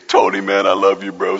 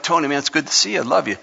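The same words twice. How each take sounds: First: Low-pitched, exaggerated tearful greeting; hammed-up weepy voice, pitched way down; mock crying. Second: Said in the usual way. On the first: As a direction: pretend to choke up greeting a buddy. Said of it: "we have to cry every time we see". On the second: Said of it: "but we should be like".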